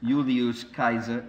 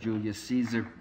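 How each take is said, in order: First: The name is said with classical Latin sounds. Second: The name is said with English-style sounds. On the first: "and Julius Caesar instead of" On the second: "instead of Julius Caesar"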